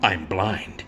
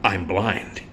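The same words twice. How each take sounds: First: Lower, softer hammed-up reveal; milk the pause, then drop it low and hushed; mock dramatic reveal. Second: Low, soft dramatic reveal; mock dramatic reveal. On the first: Blind husband in the movie, hushed hammed-up reveal. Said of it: "You see". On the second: Blind husband revealing his blindness to rescuers, hushed and low. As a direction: deliver it as a hushed big revelation. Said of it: "he goes".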